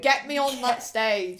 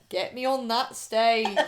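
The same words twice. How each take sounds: First: It is said in the speaker's usual accent. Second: It is said in a northern English accent.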